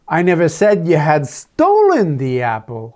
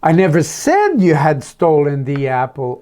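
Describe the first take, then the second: First: The word "stolen" carries the stress. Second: The word "said" carries the stress. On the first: It was taken, not stolen. "Oh, I just said you had taken it, thinking it was yours" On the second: It was written, not spoken. "Oh, maybe I just wrote a note about it"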